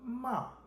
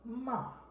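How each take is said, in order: The two takes are said the same way.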